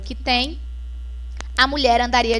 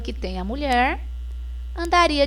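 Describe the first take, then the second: First: There is a pause after 'tem', before 'a mulher'. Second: There is a pause after 'mulher', before 'andaria'. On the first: "Bem diferente daqui" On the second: "a vírgula foi colocada antes do verbo"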